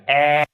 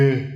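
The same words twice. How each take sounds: First: "eh" held long with the mouth stretched wide; wide-mouthed vowel. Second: "eh" held long with the mouth nearly closed; closed-mouth vowel. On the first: Teacher mimics how learners are taught, wide-mouthed vowel. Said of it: "stretch your mouth out really wide". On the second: Teacher mimics how learners are taught, closed-mouth vowel. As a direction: narrow the mouth and hold "eh". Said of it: "kind of close your mouth". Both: Shown as a demonstration.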